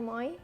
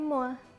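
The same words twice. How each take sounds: First: The vowel sounds like 'oy'. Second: The vowel sounds like 'wa'. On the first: The speaker calls it wrong. "Itu bacanya bukan moi" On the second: The speaker calls it right. "oi itu dibaca oa"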